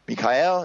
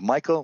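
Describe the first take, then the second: First: The name has a Hebrew pronunciation. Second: The name has an English pronunciation.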